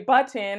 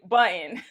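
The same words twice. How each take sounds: First: The middle T is clearly pronounced. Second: The middle T is dropped or swallowed. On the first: "I don't say button" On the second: "I also pronounce button like that"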